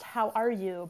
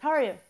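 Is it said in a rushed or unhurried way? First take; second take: unhurried; rushed. First: It is said in a calm, unhurried way. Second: It is said quickly, in a rushed way.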